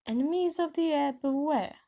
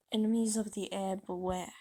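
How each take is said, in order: First: High, loud proclamation; reading out loud. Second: Said in the usual way. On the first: A narrator's reading. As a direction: announce it like a threat to everyone. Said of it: "reading it out loud". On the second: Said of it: "saw a message written".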